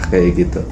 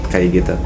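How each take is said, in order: The two takes are said the same way.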